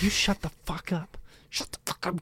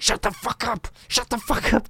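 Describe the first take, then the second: First: Angry whisper, retold; hushed scolding. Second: High-pitched retold scolding; angry partner. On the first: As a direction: whisper it so nobody else wakes. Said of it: "'cause I can't get mad at him". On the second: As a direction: partner hushing a sleep-yeller, pitched up. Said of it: "J-Dog in my face being like".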